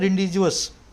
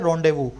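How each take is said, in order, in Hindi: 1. हर अक्षर बोला जाता है, 'jus' पर खत्म होता है। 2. साइलेंट अक्षर छोड़ दिए जाते हैं, 'voo' पर खत्म होता है। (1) "इसको क्या लिखा हुआ मैंने, रिंडिजुअस" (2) "लेकिन बोला क्या जाता है, रॉन्डेवू"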